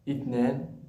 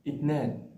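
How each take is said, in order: The two takes are said the same way.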